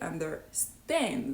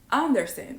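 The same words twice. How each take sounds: First: The stress is on the last syllable. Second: The stress is on the first syllable. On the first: The speaker calls it right. "so they stress the last syllable" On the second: The speaker calls it wrong. "because I used to stress the first syllable"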